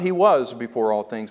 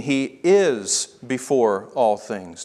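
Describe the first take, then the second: First: "was" set apart as the wrong tense; stress on was. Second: Slow, with "is" weighted and falling; stress on is. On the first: Preacher quoting the wrong version, stress on was. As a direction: tip the word "was" up as the rejected reading. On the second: Preacher contrasting present with past tense, stress on is. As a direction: lean hard on the word "is" in "He is before all things". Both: Shown as a demonstration.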